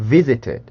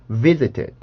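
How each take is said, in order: Both takes have the same delivery.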